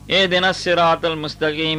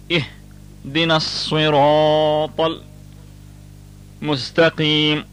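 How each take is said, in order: First: The s in sirat is a plain s. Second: The s in sirat is a heavy emphatic s. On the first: The speaker calls it wrong. "many of us pronounce it" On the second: The speaker calls it right. "The proper way should be"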